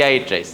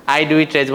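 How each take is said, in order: First: Said in the usual way. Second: "do" pressed firmly in "I do eat rice"; stress on do. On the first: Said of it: "আমরা just বলি". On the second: Shown as a demonstration. Teacher shows students the full form, stressing "do". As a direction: lean on "do" to show the helper verb. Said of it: "বলে কোনো problem নাই".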